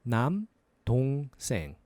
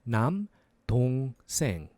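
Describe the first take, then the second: The two takes are said the same way.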